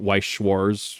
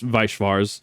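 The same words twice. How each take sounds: First: The name is said with an anglicized pronunciation. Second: The name is said with a German pronunciation. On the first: This is how most people say it. The speaker calls it wrong. "People will call it Weisschwars" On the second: This is the original form of the name. The speaker calls it right. "the German way. It is Weisschwars"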